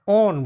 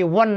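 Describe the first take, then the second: First: It is said like the word own. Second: It is said like the word won. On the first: The speaker calls it right. "ओन बोलेंगे" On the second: The speaker calls it wrong. "वन नहीं"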